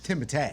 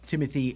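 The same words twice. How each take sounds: First: The name is said in a French-style way. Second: The name is said in an anglicized way.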